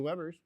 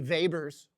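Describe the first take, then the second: First: The word begins with a W sound. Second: The word begins with a V sound. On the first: This is the usual American way to say it. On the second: This is the original German way to say it.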